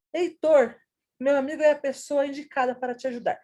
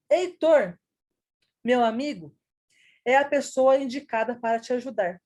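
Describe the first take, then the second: First: No break between "meu amigo" and "é", read faster; meu amigo run on. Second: Heitor, pause, meu amigo, pause, é a pessoa: set off "meu amigo" with clear breaks on both sides; pauses around meu amigo. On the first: Teacher to the class, Heitor addressed, meu amigo run straight into the verb. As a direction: pause only after "Heitor", then "meu amigo é a pessoa" in one quick unbroken breath. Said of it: "No segundo exemplo".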